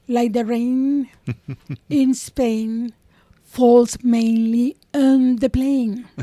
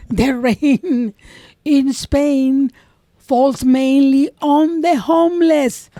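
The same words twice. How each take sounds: First: Slow elocution drill of "the rain in Spain"; over-careful lesson voice for "falls mainly on the plain"; mock diction exercise. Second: Slow, louder "the rain in Spain falls mainly on the homeless"; drawn-out punchline on "homeless"; mock elocution. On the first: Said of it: "make you repeat exercises". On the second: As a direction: parody the drill. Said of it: "What kind of a fucking moron". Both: Shown as a demonstration.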